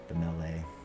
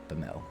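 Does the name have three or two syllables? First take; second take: three; two. First: The name is said with three syllables. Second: The name is said with two syllables. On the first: The speaker calls it right. "So it's three, uh, three syllables" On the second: The speaker calls it wrong. "I said how you did"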